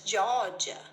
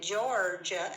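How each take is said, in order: First: The R sound is dropped. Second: The R sound is clearly pronounced. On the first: This is how the far south says it. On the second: This is how most of the country says it.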